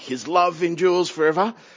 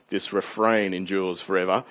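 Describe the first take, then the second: First: It is said with enthusiasm. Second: It is said wearily, without enthusiasm.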